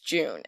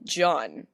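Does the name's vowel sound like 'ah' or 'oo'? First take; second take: oo; ah. First: The name is said with an 'oo' vowel. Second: The name is said with an 'ah' vowel. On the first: This is how the game says it. "in game says it's June" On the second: This is how the spelling suggests saying it. "it's spelled like it would be said John"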